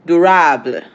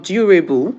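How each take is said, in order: First: "durable" said loudly the French way, ending "rah-bluh"; French pronunciation. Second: "durable" said the English way, ending "ray-bull"; English pronunciation. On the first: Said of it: "how is it pronounced in French?". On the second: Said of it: "in English?". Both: Shown as a demonstration.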